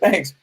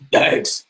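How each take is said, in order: First: It is said in an ordinary natural voice. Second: It is said in a put-on imitating voice.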